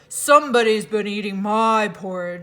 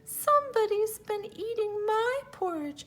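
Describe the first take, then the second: First: It is said in a deep, gruff voice. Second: It is said in a small, high voice.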